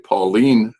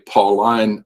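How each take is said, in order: First: The last syllable ends with a 'leen' sound. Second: The last syllable ends with a 'line' sound. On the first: "I say ... I pronounce it een" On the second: "I do not say ... I don't pronounce the I N E as ein"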